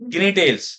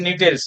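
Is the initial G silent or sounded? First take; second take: sounded; silent. First: The word starts with a sounded G. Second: The word starts with a silent G. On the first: The speaker calls it wrong. "बहुत से बच्चे बोलेंगे गिनी टेल्स। गिनी टेल्स नहीं है ये" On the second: The speaker calls it right. "ये नीटेल्स है"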